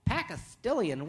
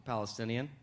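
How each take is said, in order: First: "Pakistilian" drawn out slowly, puzzled; "Pakistilian" said as PACK-a-STILL-ian; mispronounced Palestinian. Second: Said in the usual way. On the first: Acted. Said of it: "Let's pronounce it right".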